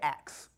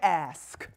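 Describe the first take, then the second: First: The word ends with a 'ks' sound. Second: The word ends with an 'sk' sound. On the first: "We say ax" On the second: "We don't say ask"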